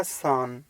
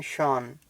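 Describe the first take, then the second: First: सान with a plain dental s, the wrong way; wrong S sound. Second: शान with a clear sh; correct SH sound. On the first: Teacher demonstrating the wrong sound, सान with plain s. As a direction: say सान with a hissing s instead of sh. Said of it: "नहीं तो वो बन जाएगा सान". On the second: Teacher showing the right sound, शान with sh. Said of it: "श का ही यूज़ होगा". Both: Shown as a demonstration.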